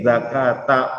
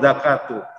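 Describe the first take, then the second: First: The word ends with an 'a' vowel. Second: The word ends with an 'u' vowel. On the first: The fetus must be slaughtered like its mother. "ada ulama yang membacanya dengan fathah" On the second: Slaughtering the mother counts as slaughtering the fetus. "Kalau kita baca dengan dhammah tadi"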